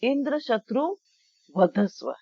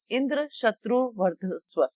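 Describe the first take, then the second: First: वधस्व without the र; pause, then वधस्व with no r sound; dropped R. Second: वर्धस्व with the र sounded; original mantra wording. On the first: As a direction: leave out the r before ध in वधस्व. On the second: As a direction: keep the r before ध in वर्धस्व. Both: Shown as a demonstration. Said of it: "ये उन्होंने र छोड़ दिया".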